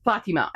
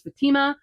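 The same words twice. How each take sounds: First: "Fatima" stressed on the first syllable, FA-ti-ma, with an open ah; corrected stress. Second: "Fatima" stressed on the middle syllable, fa-TI-ma; wrong stress. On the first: Correcting herself for viewers, stressing "Fatima" up front. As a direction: fix it by leaning on the FA of "Fatima". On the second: Listing books for viewers, stressing "Fatima" on the second syllable. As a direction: put the weight on the TI of "Fatima". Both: Real, not acted. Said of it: "I keep pronouncing it wrong".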